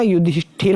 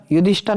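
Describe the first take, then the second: First: युधिष्ठिर ending in 'thir'; corrected pronunciation. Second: युधिष्ठर ending in short 'thar'; wrong pronunciation. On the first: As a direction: bring out the i in युधिष्ठिर. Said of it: "होता है". (युधिष्ठिर में 'ठिर' साफ़ बोलें) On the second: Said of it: "नहीं होता". (युधिष्ठर में 'ठर' बोलें) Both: Shown as a demonstration.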